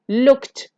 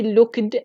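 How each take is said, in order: First: The ending is pronounced as a t sound. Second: The ending is pronounced as an extra syllable. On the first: The speaker calls it right. "When we have ed after the sound k, it will be like t" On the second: The speaker calls it wrong. "don't say looked"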